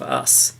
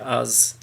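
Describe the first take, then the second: First: It is said with a standard pronunciation. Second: It is said with a Yorkshire pronunciation. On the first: This is the usual way to say it. "instead of us" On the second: This is how the family says it. "my family are from um, Yorkshire originally, and they mm. say us"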